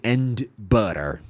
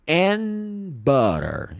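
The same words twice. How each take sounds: First: The d of and is clearly pronounced. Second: The d of and is dropped. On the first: "em vez de" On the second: "D, cai fora"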